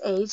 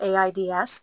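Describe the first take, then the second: First: It is said as a single word. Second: It is spelled out letter by letter. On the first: The speaker calls it right. "pronounced as a word in total. So AIDS is always said as AIDS" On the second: The speaker calls it wrong. "not AIDS"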